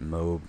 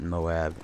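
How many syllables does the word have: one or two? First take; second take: one; two. First: The word is said as one syllable. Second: The word is said as two syllables. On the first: "MOAB is one syllable shorter than Moab" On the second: "one syllable shorter than Moab"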